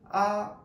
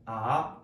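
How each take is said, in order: First: The syllable is said with the first tone. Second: The syllable is said with the third tone. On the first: "일성" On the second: "삼성"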